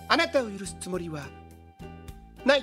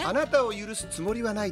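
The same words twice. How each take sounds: First: It is said with long, distinctive pauses. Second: It is said smoothly without unusual pauses. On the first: "堺の間がすごいですよね" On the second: "言えばいいのに"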